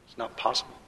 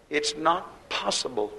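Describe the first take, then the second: First: Softer repeat, "not" only lightly stressed; quiet afterthought from the pulpit; soft echo. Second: "not" stressed and slowed right down; slow, insistent preacher emphasis; slow emphatic. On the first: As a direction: let it drop, almost to yourself. Preacher repeats the line softly. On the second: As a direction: lean hard on "not", drawing it out. Preacher insisting, repeats the line. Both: Real, not acted.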